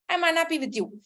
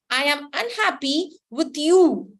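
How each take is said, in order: First: The word unhappy carries no special stress. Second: The word unhappy is strongly stressed. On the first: A casual statement of displeasure. "Here the intensity is very less" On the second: The displeasure is strong and deliberate. "I have stressed on unhappy"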